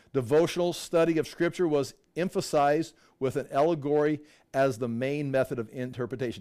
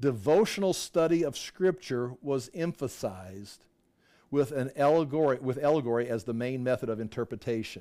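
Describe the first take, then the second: The two takes are said the same way.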